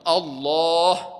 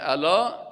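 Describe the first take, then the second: First: The word is pronounced as Allah. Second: The word is pronounced as ala. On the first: The speaker calls it right. "ما شما نام الله را باید بگیم الله" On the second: The speaker calls it wrong. "بعضی کسا که میگه الا"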